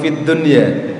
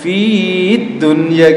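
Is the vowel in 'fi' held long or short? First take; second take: short; long. First: The vowel in 'fi' is kept short. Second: The vowel in 'fi' is held long. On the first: The speaker calls it right. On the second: The speaker calls it wrong.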